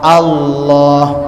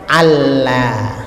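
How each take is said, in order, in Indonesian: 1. Bunyi L-nya tebal. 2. Bunyi L-nya tipis. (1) "Jadi Allahnya itu tebal bacaannya" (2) "jangan Allah"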